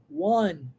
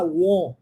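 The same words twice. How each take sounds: First: "won" with an open English vowel, like "wan"; "won" pronounced open, unrounded and lower. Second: "won" with a closed Portuguese o; "won" mispronounced with a tight o; closed vowel mispronunciation. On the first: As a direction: say "won" as "one". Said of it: "Eu vou falar won". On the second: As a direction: say "won" wrongly, rounded like "uon". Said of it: "Eu não vou falar won". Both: Shown as a demonstration.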